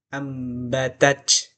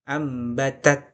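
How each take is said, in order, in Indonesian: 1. Konsonan akhirnya berbunyi seperti ch. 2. Konsonan akhirnya adalah t dengan udara yang dilepas. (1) "Itu bukan makhraj ta, ya, karena makhraj ta bukan c" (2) "tapi t. T yang keluar angin"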